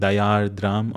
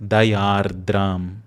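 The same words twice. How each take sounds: First: The R is softened, as in English. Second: The R is pronounced clearly and crisply. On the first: The speaker calls it wrong. "softening your uh, R's as you do in English" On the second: The speaker calls it right. "Make sure that the R is clear"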